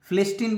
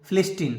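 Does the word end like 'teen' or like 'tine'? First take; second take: teen; teen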